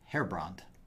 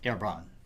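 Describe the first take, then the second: First: The name is pronounced with an English accent. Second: The name is pronounced with a French accent. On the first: "the anglicized version" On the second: "As Herbron is French, it should properly be pronounced Herbron"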